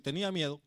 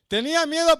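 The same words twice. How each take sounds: First: Said in the usual way. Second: Higher and louder, preaching force; emphatic cry. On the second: Real, not acted. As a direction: cry out the fear. Repeated with force.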